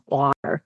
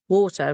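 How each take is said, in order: First: It is said in an American accent. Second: It is said in a British accent. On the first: This is how locals expect it to be said. "rather than water" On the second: This is how the speaker naturally says it. "I say water"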